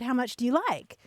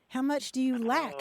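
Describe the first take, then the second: First: The last word is pronounced like 'like'. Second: The last word is pronounced like 'lack'.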